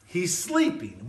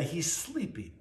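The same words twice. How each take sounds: First: Said in the usual way. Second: Softer, almost under the breath; hushed. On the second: Retold or imitated. Jesus tells of Lazarus who has died, hushed. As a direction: let it fall away gently, hushed.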